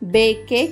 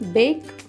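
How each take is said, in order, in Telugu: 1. k తర్వాత అదనపు అచ్చు శబ్దంతో ముగుస్తుంది. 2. అచ్చు లేకుండా k తోనే ముగుస్తుంది. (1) "మనం నేర్చుకున్న పద్ధతి ప్రకారం బిఏకేఈ యొక్క ఉచ్చారణ బేకే కావాలి" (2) "కానీ అలా కాదు మిత్రులారా, ఈ పదాల ఉచ్చారణ బేక్"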